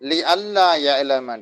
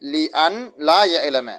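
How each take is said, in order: First: The n merges into a doubled l sound. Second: The n is pronounced separately before la. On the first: "நூனை நம்ம சொல்லாம அந்த நூனை லாம்ல இதுகாம் செஞ்சு நம்ம சொல்றோம்" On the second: "இல்லாட்டி லி அன் லா யஅலம"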